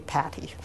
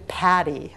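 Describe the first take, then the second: First: "Patty" with a crisp, aspirated T. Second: "Patty" with a flapped T, like paddy; soft-T Patty. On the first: Colleague correcting her name, "Patty" with crisp T. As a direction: release the T in "Patty" clearly, Pat-tee. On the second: Colleague reporting the misprint, "Patty" said like paddy. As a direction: turn the T in "Patty" into a quick D. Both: Retold or imitated. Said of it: "it's supposed to be Patty".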